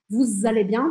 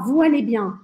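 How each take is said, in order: First: A z sound links vous to allez. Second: Vous and allez are said separately, no z. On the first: The speaker calls it right. "Todo mundo vai falar vous allez bien, Estou exagerando aqui o Z" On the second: The speaker calls it wrong. "Você não vai ouvir ninguém falar vous allez bien"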